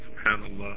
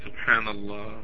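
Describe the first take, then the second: First: The word is said quickly and rushed. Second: The word is said slowly and carefully. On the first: The speaker calls it wrong. "don't do it like this" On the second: The speaker calls it right. "Take your time"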